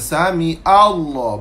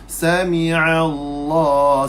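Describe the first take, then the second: First: 'Sami' runs straight into Allah without the vowel. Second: A clear 'a' vowel follows 'sami' before Allah. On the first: The speaker calls it wrong. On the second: The speaker calls it right.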